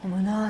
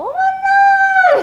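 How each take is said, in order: First: The pitch stays at a normal level. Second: The pitch goes up higher.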